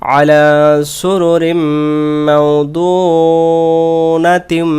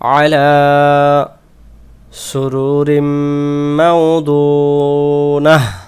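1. শেষ শব্দটি সরাসরি পরের আয়াতের সঙ্গে যুক্ত হয়। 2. শেষ শব্দটি থেমে যায় এবং দম নেওয়া হয়। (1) "দুইটা একসাথে পড়বো" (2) "কেউ যদি এখানে দম ছেড়ে দেন"

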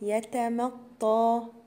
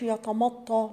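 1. صوت الميم مرقق. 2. صوت الميم مفخم. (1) "لا اقول" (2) "فما اقولش يتمطى"

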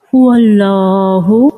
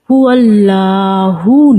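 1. Allah-এর L ধ্বনিটি ভারী ও মোটা। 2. Allah-এর L ধ্বনিটি হালকা ও পাতলা।

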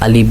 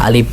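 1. শেষ ধ্বনিটি একটি মহাপ্রাণ ওষ্ঠ্য ph। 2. শেষ ধ্বনিটি একটি মহাপ্রাণ ওষ্ঠ্য ph।

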